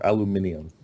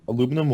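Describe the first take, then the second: First: It is said with five syllables, alu-min-i-um. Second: It is said with four syllables, alu-mi-num.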